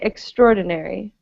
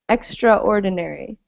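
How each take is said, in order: First: The 'a' in 'extra' is dropped entirely. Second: The 'a' in 'extra' is clearly pronounced. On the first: The speaker calls it right. "We just say extraordinary, as though the A weren't there" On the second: The speaker calls it wrong. "we don't pronounce it extraordinary"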